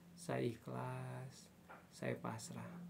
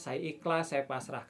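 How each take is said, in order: First: It is spoken slowly, with deep feeling. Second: It is spoken flatly, without feeling. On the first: The words are truly felt. The speaker calls it right. "hadirkan rasanya... slow" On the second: The words are only recited. The speaker calls it wrong. "Itu masih flat ya"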